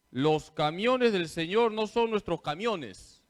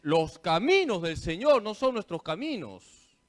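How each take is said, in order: First: Camiones said for caminos, a bit louder; mock blooper reading. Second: Said in the usual way. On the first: Priest imitating a lector's misreading camiones. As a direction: recite the slip camiones with lector confidence. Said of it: "Esto también es verídico".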